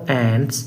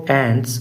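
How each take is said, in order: The two takes are said the same way.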